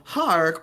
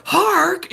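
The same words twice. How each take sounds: First: Said in the usual way. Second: "Hark" said much higher and louder; "Hark" jumping up in pitch; high bright Hark. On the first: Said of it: "if they're saying, like". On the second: Shown as a demonstration.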